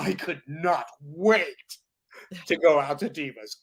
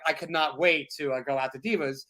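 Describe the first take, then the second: First: It is performed with lively, excited enthusiasm. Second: It is read flatly, like a dull chore. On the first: The moment is relived with real feeling. The speaker calls it right. "I would say, oh" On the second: The words are just read off the page. The speaker calls it wrong. "instead of saying"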